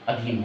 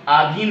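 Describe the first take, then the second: First: अधीन with a short schwa first; short opening A. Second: आधीन with a long opening aa; wrong long A. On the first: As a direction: begin अधीन on a brief uh, lower and softer. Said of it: "अधीन होगा". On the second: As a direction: open आधीन on a long, louder aa. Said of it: "आधीन नहीं होगा". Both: Shown as a demonstration.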